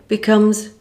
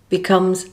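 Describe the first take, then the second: No difference in how they are said.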